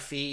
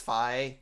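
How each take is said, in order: First: The vowel sounds like 'ee' in 'see'. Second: The vowel sounds like 'eye' in 'my'. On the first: The speaker calls it wrong. "I call her Fee" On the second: The speaker calls it right. "the proper pronunciation is Fi"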